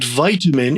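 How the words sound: It uses the American pronunciation. "in the U S and Canada"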